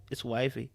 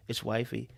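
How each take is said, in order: Both takes have the same delivery.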